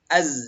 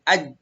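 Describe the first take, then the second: First: It ends with a buzzing z sound. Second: It ends with a j sound. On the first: The speaker calls it right. "Harus az" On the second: The speaker calls it wrong. "nggak boleh aj"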